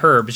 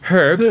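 First: The word starts without an h sound. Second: The word starts with a clear h sound. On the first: "you don't just say herbs" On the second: "You say herbs. Like, you give herbs. Give it a little something extra"

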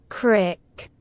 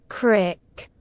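The two takes are said the same way.

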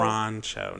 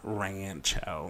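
First: It is said with a Spanish pronunciation. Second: It is said with a Midwestern American pronunciation. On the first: The speaker calls it right. "So Rancho" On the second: The speaker calls it wrong. "not Rancho. Like my very Indiana slang"

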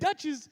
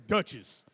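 First: The name is said in a plain, light voice. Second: The name is said in a deep, manly voice. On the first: "it don't sound too manly the way I just said Duchess" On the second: "but he would say Duchess"

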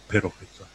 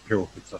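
First: The R is said with a tap. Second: The R is said without a tap. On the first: The speaker calls it wrong. "It's not Piropeta" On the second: The speaker calls it right. "there's no R in the Samoan language, so that's Piropeta"

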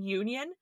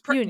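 First: It begins with a 'you' sound. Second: It begins like the word onion.

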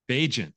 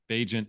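First: The middle consonant is a soft j sound. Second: The middle consonant is a soft j sound.

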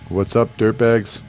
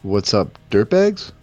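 First: It is said flatly, without emotion. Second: It is said with more emotion.

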